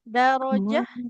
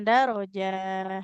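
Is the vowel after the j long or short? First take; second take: short; long. First: The vowel after the j is short. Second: The vowel after the j is drawn out. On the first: The speaker calls it right. "Jimnya tidak dipanjangkan" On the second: The speaker calls it wrong. "jangan darojah ya"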